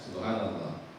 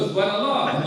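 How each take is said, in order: First: It is said plainly, in an ordinary tone. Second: It is said in an exaggerated, marked tone. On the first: It is meant as remembrance of God. The speaker calls it right. "standar aja" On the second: It is used to call out and alert someone. The speaker calls it wrong. "itu tidak bisa"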